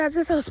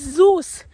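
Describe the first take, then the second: First: The name is said as Zesos. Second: The name is said as Zeus. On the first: The speaker calls it wrong. "in my head, for selling say Zesos" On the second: The speaker calls it right. "but it's Zeus"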